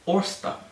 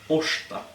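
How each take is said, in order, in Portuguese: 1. O R e o S são pronunciados como sons separados. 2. O R e o S se fundem em um único som 'sh'. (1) "Mas você estaria errado" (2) "Então, é um sh, né?"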